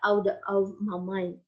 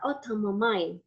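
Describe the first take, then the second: First: "out of" slow, in separate words; unlinked full form. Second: "out of" run together as outa; reduced "outa". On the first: Teacher showing what not to say, slow separate "out of". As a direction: pronounce "out of" word by word, slowly. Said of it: "Tidak out of my mind". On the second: Teacher demonstrating the linked form, "out of" as outa. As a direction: blend "out of" into outa, dropping the v. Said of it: "Outer, outer dibacanya ya". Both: Shown as a demonstration.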